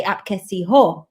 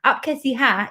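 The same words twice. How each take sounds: First: "ho" as the last word, with a rounded o; slow teaching delivery, rounded "ho"; female greeting form. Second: "hai" as the last word, sounding like "ha"; "hai" said with an open a, falling; male greeting form. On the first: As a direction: slowly demonstrate "Aap kaisi ho", ending on "ho". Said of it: "as a woman, you'd say". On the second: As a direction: end "Aap kaisi hai" on an open "hai". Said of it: "is how a man would greet". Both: Shown as a demonstration.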